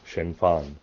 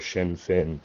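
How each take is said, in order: First: The two words do not rhyme. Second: The two words rhyme with each other. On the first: "if you wanted to be accurate pronouncing it in Irish" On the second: "the English Irish pronunciation"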